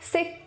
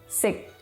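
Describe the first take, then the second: First: A short syllable on a high pitch. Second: A short syllable on a low pitch. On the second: "and low tones"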